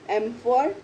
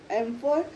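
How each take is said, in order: Both takes have the same delivery.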